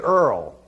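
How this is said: It is said in a Brooklyn accent, like 'earl'.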